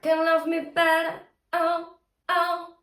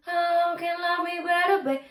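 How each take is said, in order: First: High, firm sung phrase with hard onset on "oh"; crisp onsets on "oh", sung high; sung, semiglottal attack. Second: Airy, mellow singing from "oh" on; sung, too mellow, breathy. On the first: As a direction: start each sung "oh" with a slight glottal catch. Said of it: "a little semiglottal attack". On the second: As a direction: ease into "oh" on breath as you sing. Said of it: "That's too mellow, too breathy". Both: Shown as a demonstration.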